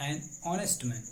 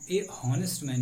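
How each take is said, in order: First: ऑनेस्ट begun on the o vowel, after एन; silent h. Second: हॉनेस्ट with the h sounded, after ए; wrong pronunciation. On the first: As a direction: drop the h of ऑनेस्ट and link it to एन. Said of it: "ओ से आवाज आ रही है". (ऑनेस्ट में ह मूक, ओ से शुरू) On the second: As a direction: demonstrate the mistake by voicing the h in हॉनेस्ट. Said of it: "नहीं, बल्कि आयशा एन ऑनेस्ट". (हॉनेस्ट में ह की आवाज़ के साथ गलत उच्चारण) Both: Shown as a demonstration.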